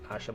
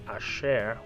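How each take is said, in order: First: The name is said the usual English way. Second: The name is said the original, non-English way. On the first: "when we pronounce it in English, it's Asha" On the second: "but it's actually Asher"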